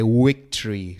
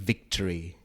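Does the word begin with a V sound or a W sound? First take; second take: W; V. First: The word begins with a W sound. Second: The word begins with a V sound. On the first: The speaker calls it wrong. "Sometimes I say it with W" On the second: The speaker calls it right. "Sometimes I say it with V"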